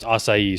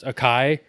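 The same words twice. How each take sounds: First: It is said with its original pronunciation. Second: It is said with an anglicized pronunciation. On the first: The speaker calls it right. "is technically pronounced" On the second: The speaker calls it wrong. "looks like it's pronounced acai"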